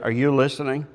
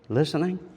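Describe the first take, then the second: First: It is said in a stern tone. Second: It is said in a gentle tone.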